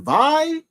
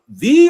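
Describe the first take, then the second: First: The name rhymes with die. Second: The name does not rhyme with die. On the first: The speaker calls it right. "kind of like die" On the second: The speaker calls it wrong. "do you pronounce it V or Vi?"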